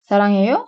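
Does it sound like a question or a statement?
question. It has emphasized question intonation. Do you love? "seviyor musun"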